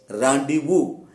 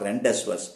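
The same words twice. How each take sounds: First: The word is pronounced the French way. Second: The word is not pronounced the French way. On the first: The speaker calls it right. "in French language, it is pronounced as rendezvous" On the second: The speaker calls it wrong. "It is not rendezvous"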